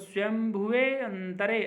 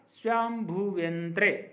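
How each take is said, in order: First: It is said as two separate words with the e. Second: It is run together without the e sound. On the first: "संधि विच्छेद करके पढ़ेंगे तो" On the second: "जब इसका उच्चारण करेंगे ... ए का उच्चारण नहीं होगा"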